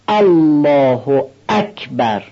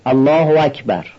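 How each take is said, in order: First: The glottal stops are overly sharp and exaggerated. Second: The glottal stops are weak, with a w-like link. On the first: "برخی هم از اون طرف افراد دارن، به این صورت میگن الله اکبر، اینم افراد است" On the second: "بعضی دقت ندارن و اینجوری میخونن الله و اکبر، یعنی الف الله رو خوب بیان نمی کنن و الف اکبر هم یا خوب بیان نمیشه یا به واو تبدیل میشه"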